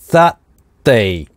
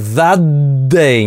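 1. Слова разделяют гортанная смычка и короткая пауза. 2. Два слова соединяются через долгое двойное d. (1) "а that, пауза, day" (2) "не двойное русское «д»"

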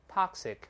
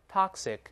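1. 这是用美式口音说的。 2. 这是用美式口音说的。

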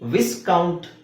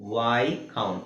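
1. ಮೊದಲ ಉಚ್ಚಾಂಶದಲ್ಲಿ s ಉಚ್ಚರಿಸಲ್ಪಡುತ್ತದೆ. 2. ಮೊದಲ ಉಚ್ಚಾಂಶದಲ್ಲಿ s ಉಚ್ಚರಿಸಲ್ಪಡುವುದಿಲ್ಲ. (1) "ಇಲ್ಲಿ ವಿಸ್ಕೌಂಟ್ ಅಂತ ಅನ್ಸ್ಬೋದು" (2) "ಎಸ್ ಸೈಲೆಂಟ್ ಆಗಿರುತ್ತೆ"

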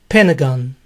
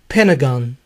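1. El sonido T se omite. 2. El sonido T se omite.

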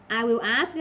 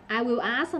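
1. "Will" được phát âm như một từ riêng, đầy đủ. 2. "Will" được phát âm như một từ riêng, đầy đủ.

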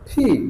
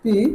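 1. P বলার সময় জোরে বাতাসের ফুঁ ছাড়া হয়। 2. P বলার সময় একটুও বাতাস ছাড়া হয় না। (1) "এখন হয়ে যাবে কি ফি" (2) "আমরা এটা কি বলতাম পি"

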